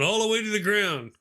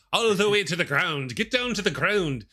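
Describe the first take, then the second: First: Said in the usual way. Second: Imitated Irish accent, pitched up. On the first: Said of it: "except for he's doing it with". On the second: Friend off camera urging push-ups on, mock Irish accent. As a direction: mimic an Irish coach calling out. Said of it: "doing it with an Irish accent".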